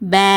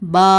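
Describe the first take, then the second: First: The vowel is bent toward an e sound. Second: The vowel sounds heavy and thick. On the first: "சாச்சு ஓதக்கூடாது" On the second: "ஹெவியாவும் உச்சரிக்கக்கூடாது"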